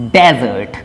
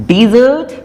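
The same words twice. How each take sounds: First: Desert said as dezə˞t, stress on the first syllable, pitched down; noun desert. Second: Desert said as dizət, stress on the second syllable, pitched up; verb desert. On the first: Teacher contrasting the noun desert. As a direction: drop low, DEZ-ert, for desert. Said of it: "and this one is noun". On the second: Teacher contrasting the verb desert. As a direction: lift the end, di-ZERT, for desert. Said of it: "This one is verb". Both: Shown as a demonstration.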